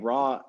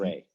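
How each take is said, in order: First: The vowel sounds like 'ah'. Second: The vowel sounds like 'ay'. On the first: This is the modern scholarly convention. The speaker calls it wrong. "Ra is the Egyptological pronunciation" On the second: This is how the word was actually said anciently. The speaker calls it right. "the word was"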